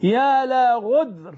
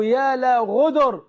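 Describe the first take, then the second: First: "غدر" with no vowel after the د; called-out "غدر" ending in a closed cluster; first variant pronunciation. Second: "غدر" with a vowel after the د; called-out "غدر" in two short syllables, ghu-dar; second variant pronunciation. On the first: («غدر» بتسكين الدال) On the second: («غدر» بفتح الدال) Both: Shown as a demonstration. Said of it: "أو".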